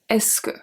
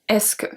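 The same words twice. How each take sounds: First: It runs together as one word. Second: The same.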